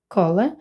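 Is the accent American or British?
British. The first vowel is a short British O. "Бачимо тут О коротке"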